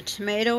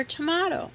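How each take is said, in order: First: "tomato" said tuh-MAY-toh; American pronunciation. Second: "tomato" said tuh-MAH-toh; alternative pronunciation. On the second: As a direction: say "tomato" with a long AH in the middle, as in "father". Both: Shown as a demonstration. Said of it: "Is a tomato or tomato?".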